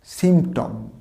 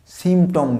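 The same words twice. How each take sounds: First: "সিম্পটম" with the p sounded, simp-tom; correct pronunciation. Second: "সিম্পটম" with silent p, sim-tom; wrong sim-tom, m straight into t; mispronunciation. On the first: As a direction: say "সিম্পটম" with a p before the t. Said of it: "পিটার উচ্চারণ হবে". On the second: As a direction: say "সিম্পটম" dropping the p. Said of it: "সিম্পটম নয়". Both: Shown as a demonstration.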